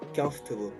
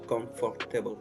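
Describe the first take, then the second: First: The word is said in a shorter, reduced form. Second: The word is said in a longer, fuller form. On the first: The speaker calls it right. "c'est facile et ça vous fait gagner aussi du temps" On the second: The speaker calls it wrong. "On a tendance à, à prononcer comme étant comfortable"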